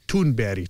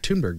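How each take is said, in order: First: The name is said with Swedish sounds. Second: The name is said with English sounds.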